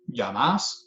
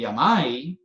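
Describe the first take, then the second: First: The stressed vowel is a single plain vowel. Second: The stressed vowel glides into a diphthong. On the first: This is the older form used in Medellín and Cali. "no se ha diptongado, así se dice en Medellín" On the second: This is the form used in La Guajira and Valledupar. "se diptongó la vocal"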